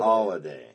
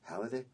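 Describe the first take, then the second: First: The first syllable sounds like 'hol', as in holiday. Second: The first syllable sounds like 'hal', as spelled. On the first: The speaker calls it right. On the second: The speaker calls it wrong.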